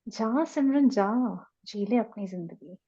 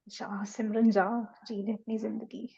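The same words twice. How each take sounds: First: It is said in a surprised tone. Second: It is said in a fearful tone.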